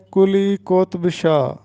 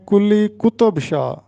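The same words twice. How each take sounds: First: قطب in کلی قطب Shah said qotb, ط without a vowel; درست تلفظ. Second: قطب in کلی قطب Shah said qu-tob, two syllables; غلط تلفظ. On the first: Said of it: "یہ درست تلفظ ہے". (کلی قطب شاہ میں قُطْب، ط ساکن) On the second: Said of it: "جو کہ غلط ہے۔". (کلی قطب شاہ میں قُطُب، ط پر پیش) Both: Shown as a demonstration.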